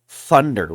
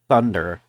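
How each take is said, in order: First: The word begins with an f sound. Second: The word begins with a th sound. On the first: The speaker calls it wrong. "I kept saying thunder with an F" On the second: The speaker calls it right. "the pronunciation was thunder with a T H"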